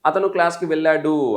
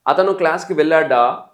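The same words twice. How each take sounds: First: Slow statement, వెళ్ళాడు ending on a long "duu"; measured answer demo with drawn-out వెళ్ళాడు; answer form. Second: Slow and loud, వెళ్ళాడా ending on a long "daa"; emphatic question demo with drawn-out వెళ్ళాడా; question form. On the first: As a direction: stretch the final "uu" of వెళ్ళాడు as it falls. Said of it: "answer". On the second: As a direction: stretch the final "aa" of వెళ్ళాడా. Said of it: "question". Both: Shown as a demonstration.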